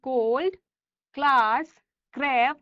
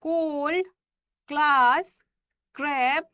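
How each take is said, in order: Both takes have the same delivery.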